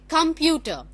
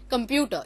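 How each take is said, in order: First: The stress is on the first syllable. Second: The stress is not on the first syllable. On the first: The speaker calls it right. "the first syllable come will have the the prolonged vowel" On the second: The speaker calls it wrong. "You don't say computer"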